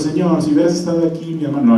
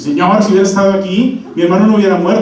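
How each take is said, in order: First: It is said in a gentle, plain tone. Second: It is said in a reproachful, complaining tone.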